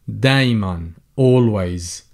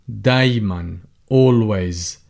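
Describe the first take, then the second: Both takes have the same delivery.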